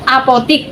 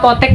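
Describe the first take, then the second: First: The last syllable has an i vowel. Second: The last syllable has an e vowel. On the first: The speaker calls it wrong. "apotik pakai I" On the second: The speaker calls it right. "apotek pakai E"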